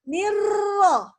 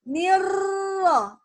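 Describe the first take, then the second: Both takes have the same delivery.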